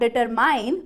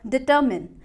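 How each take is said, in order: First: The last syllable sounds like 'mine'. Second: The last syllable sounds like 'min'. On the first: The speaker calls it wrong. "Not डिटरमाइन" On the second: The speaker calls it right. "But डिटरमिन"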